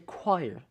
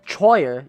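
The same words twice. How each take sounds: First: The word begins with a 'kw' sound. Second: The word begins with a 'ch' sound. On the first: The speaker calls it right. "you say choir" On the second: The speaker calls it wrong. "You don't say choir"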